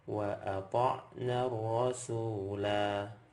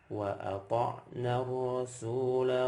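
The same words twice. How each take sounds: First: The final vowel is held for two beats. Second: The final vowel is held for one beat. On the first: The recitation stops after this word. "Saya akan contohkan ketika waqaf dulu. ... Dua harokat" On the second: The recitation continues into the next word. "Ketika diwasal, maka dia jadi satu harokat"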